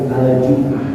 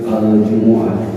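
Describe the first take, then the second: First: The m is followed by no vowel. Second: The m is followed by a u vowel. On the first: "dengan disukun atau dimatikan mimnya" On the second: "dengan domah pada huruf mim"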